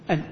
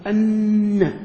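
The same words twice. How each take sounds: First: "أن" cut to a single silent-vowel nun, "an"; نون مخففة. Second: "أن" with a long doubled nun and a final a; نون مشددة. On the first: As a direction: end "أن" on a plain n, no vowel after it. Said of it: "إذن حذفت أنت الحرف المتحرك". ("أن" بنون واحدة ساكنة دون شدة) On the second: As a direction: hold the n in "أن", then release it as "anna". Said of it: "كيف نقول ننطقها؟". ("أن" بنون مشددة ممدودة ثم فتحة) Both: Shown as a demonstration.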